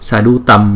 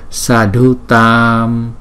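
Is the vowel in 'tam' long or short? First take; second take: short; long. First: The vowel in tam is short. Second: The vowel in tam is held long. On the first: The speaker calls it wrong. "Sadhu Tâm là sai" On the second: The speaker calls it right. "chữ A này là hai nhịp"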